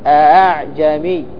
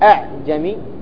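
First: The second hamza is softened toward a long a. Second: The second hamza is pronounced fully and clearly. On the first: The speaker calls it right. "لابد تسهيل" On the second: The speaker calls it wrong. "فلا تقول أعجمي, خطأ عند حفص"

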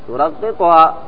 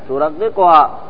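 Both takes have the same delivery.

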